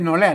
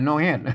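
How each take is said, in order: First: The second syllable begins with an r sound. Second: The second syllable begins with an h sound. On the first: This is the standard Thai pronunciation. "ไม่ใช่นอแรด" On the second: This is the Lanna pronunciation. "นอแฮดไม่ใช่นอแรดนะอันภาษาละนา"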